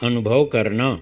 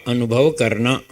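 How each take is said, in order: Both takes have the same delivery.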